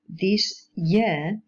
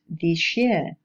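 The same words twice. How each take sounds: First: The word 'this' ends in a plain s sound. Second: The word 'this' ends in an sh sound.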